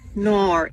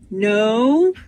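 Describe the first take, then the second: First: It is said Australian-style, sounding like 'nor'. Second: It is said in a plain American accent.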